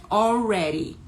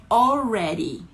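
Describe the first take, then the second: The two takes are said the same way.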